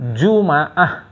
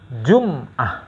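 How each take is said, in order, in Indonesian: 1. Huruf m diikuti vokal a. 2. Huruf m tidak diikuti vokal.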